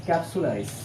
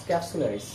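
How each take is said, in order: The two takes are said the same way.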